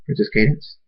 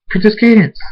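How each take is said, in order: First: Said in the usual way. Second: High, loud call with falling end; screamed name. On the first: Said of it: "Thunderstorm says". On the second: A narrator's reading. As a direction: scream out to find the princess. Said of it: "Thunderstorm screams".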